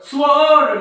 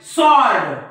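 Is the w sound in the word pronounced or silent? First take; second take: pronounced; silent. First: A w sound is heard after the s. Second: No w sound is heard after the s. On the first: The speaker calls it wrong. "स्वओर्ड नाही" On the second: The speaker calls it right. "सॉर्ड म्हणजे डब्ल्यूचा काही role नाही"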